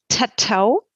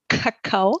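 First: The word is said with T sounds. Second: The word is said with K sounds. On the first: "wenn man stattdessen das T einsetzt" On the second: "das K wird hinten im Mundraum gebildet"

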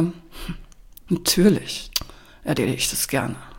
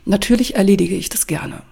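First: It is said in an ironic, grudging tone. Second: It is said in a sincere, plain tone.

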